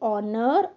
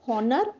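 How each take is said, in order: First: The word begins with a vowel sound. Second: The word begins with an h sound. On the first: The speaker calls it right. "We have to pronounce them simply as ऑनर" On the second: The speaker calls it wrong. "We should not pronounce this like हॉनर"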